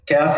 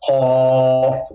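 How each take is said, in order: First: The first consonant is a soft k sound. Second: The first consonant is made deep in the throat. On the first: The speaker calls it wrong. "it's not calf ... it's kind of soft" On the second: The speaker calls it right. "that comes from deep in the in the throat"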